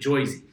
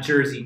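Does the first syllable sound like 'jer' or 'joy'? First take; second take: joy; jer. First: The first syllable has an 'oy' vowel. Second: The first syllable has an 'er' vowel. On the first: The speaker calls it right. "one pronunciation I have for you, it's Joyzy" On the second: The speaker calls it wrong. "Not Jersey"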